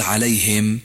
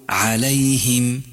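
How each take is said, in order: First: عليهم said with the ha not in kasra; wrong vowel on ha. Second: عليهم with a clear kasra on the ha; correct kasra on ha. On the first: Teacher demonstrates the common error in عليهم. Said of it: "لا تقل عليهم". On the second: Teacher gives the correct عليهم to the learner. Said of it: "الصواب أن تقول عليهم". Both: Shown as a demonstration.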